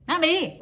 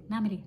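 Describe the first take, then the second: First: Much higher, louder "نعمل ايه؟"; emphatic repeated question. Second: Said in the usual way. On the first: Shown as a demonstration. Asking listeners how to break free of people pleasing, emphatic and high.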